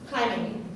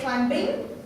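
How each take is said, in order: First: The b sound is silent in the word. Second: The b sound is pronounced in the word. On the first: The speaker calls it right. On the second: The speaker calls it wrong.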